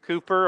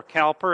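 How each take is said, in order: First: Cowper said like "Cooper"; pronounced Cooper. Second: Cowper said with an "ow", COW-per; pronounced as spelled. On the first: Introducing the poet to listeners, Cowper pronounced "Cooper". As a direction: say Cowper with an "oo", COO-per. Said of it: "I believe it was said Cooper". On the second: Offering listeners the spelled reading, Cowper as "COW-per". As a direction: say Cowper to rhyme its start with "cow". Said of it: "that's how you would say it". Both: Shown as a demonstration.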